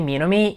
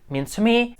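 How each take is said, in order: First: The phrase is said quickly and run together. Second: The phrase is said slowly and carefully.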